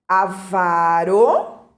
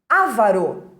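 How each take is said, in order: First: The stress is on the second syllable. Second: The stress is on the first syllable. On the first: The speaker calls it right. "Avaro é palavra paroxítona" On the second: The speaker calls it wrong. "erradamente pronunciada como uma proparoxítona"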